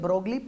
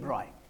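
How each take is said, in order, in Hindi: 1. नाम वैसे ही बोला जाता है जैसे लिखा है, 'glee' पर खत्म होता है। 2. नाम बिना g के बोला जाता है, 'oy' पर खत्म होता है। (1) "लिखेंगे ब्रोगली" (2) "पढ़ेंगे डी ब्रॉय"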